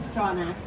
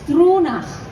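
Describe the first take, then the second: First: The name is said with plain English pronunciation. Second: The name is said with Gaelic pronunciation. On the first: This is the simpler everyday pronunciation. "we just say Stronach" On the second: This is the name's original pronunciation. "it's a Gaelic name, so it's Stronach"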